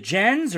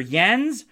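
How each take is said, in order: First: "Jens" starting like "jet"; Jens with J sound. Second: "Jens" starting like "yes"; Jens with Y sound. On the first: Host checking a listener's name, "Jens" with a hard English J. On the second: Host offering the other reading of a listener's name, "Jens" said as "Yens". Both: Shown as a demonstration. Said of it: "I hope I'm saying your name right".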